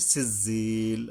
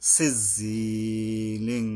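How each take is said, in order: First: The word ends on l with nothing added. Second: The word ends with an added nasal ing sound. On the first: The reciter stops after this word. "যদি আমরা থামি আর কি" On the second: The reciter continues into the next word. "আর যদি না থামি তাইলে"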